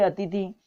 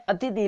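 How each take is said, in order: First: अतिथि said "a-ti-THI"; ti before thi. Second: अतिथि said "a-THI-ti"; swapped syllables. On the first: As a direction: end अतिथि on aspirated thi. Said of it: "इसका शुद्ध है अतिथि". (अतिथि में पहले "ति", फिर "थि") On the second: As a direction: put the aspirated thi before ti in अतिथि. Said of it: "ये अशुद्ध हो गया". (अतिथि को "अथिति" बोलें) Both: Shown as a demonstration.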